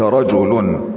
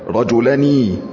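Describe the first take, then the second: First: The final n has no vowel after it. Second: The final n is followed by a vowel. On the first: The speaker calls it right. "إنما قلت رجل، فالنون ساكنة زائدة" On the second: The speaker calls it wrong. "ما قلت رجلنا رجلني"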